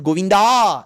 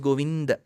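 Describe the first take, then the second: First: The name ends with a drawn-out final vowel. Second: The name ends with a short final vowel. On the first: The speaker calls it wrong. "nor Govinda" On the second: The speaker calls it right. "It is Govind"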